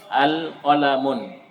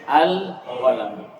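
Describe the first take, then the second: First: The word ends with an added final n sound. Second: The word ends in a plain vowel, no final n. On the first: The speaker calls it wrong. "Dia akan baca al qalamun" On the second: The speaker calls it right. "Kapan ada alif lamnya, maka tanwinnya dibu dibuang"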